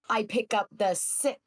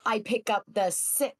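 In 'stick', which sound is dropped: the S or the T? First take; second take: T; T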